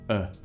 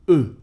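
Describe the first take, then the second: First: The vowel is said with a relaxed, open mouth. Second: The vowel is said with rounded, pushed-out lips. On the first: "If you're a bit lazy, you can just open your mouth" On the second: "that was the very proper way to say it"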